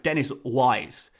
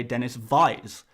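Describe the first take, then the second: First: Said in the usual way. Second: "Wise" said with a V, as Vise; Indian W as V. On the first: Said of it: "another player beginning with W". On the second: Shown as a demonstration. YouTuber showing Indian viewers' pronunciation, W in Wise becomes V. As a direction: say "Dennis Wise" starting Wise with a V. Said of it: "In an Indian accent".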